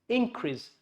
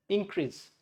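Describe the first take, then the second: Both takes have the same delivery.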